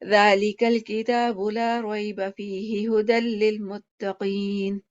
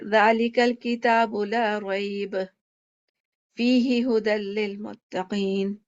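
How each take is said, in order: First: It runs through without stopping. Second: It stops after rayb, then continues.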